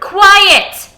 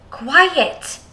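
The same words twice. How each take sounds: First: The word is shouted loudly with emotion. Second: The word is said calmly, without shouting.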